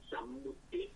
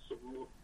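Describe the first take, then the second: First: สัมมุติ said the Pali way, opening with "sam"; careful Pali-style สัมมุติ, "sam-" not "som-"; original Pali pronunciation. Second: สมมุติ said the Lao way, opening with "som"; everyday Lao สมมุติ, "som-" not "sam-"; adapted Lao pronunciation. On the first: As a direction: pronounce สัมมุติ with an "a" in the first syllable. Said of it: "คำเดิมจะออกเสียงว่า". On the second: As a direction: pronounce สมมุติ with an "o" in the first syllable. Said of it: "เราก็แปลงเสียงมาเป็น". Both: Shown as a demonstration.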